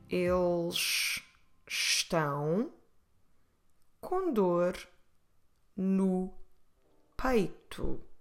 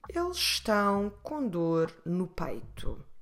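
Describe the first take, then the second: First: It is said at normal speed. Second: It is said a little faster.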